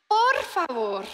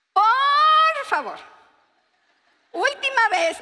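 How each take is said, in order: First: Said in the usual way. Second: Pleading wife. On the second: Retold or imitated. Wife begging husband about bread.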